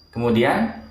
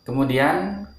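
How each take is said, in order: Both takes have the same delivery.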